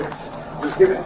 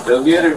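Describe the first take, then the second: First: High, slow, breathy whisper of the order; whispered echo. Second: Said in the usual way. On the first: Pretend. Reactor echoing the cop's order, in a high slow whisper. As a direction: whisper it back slowly, pitched way up.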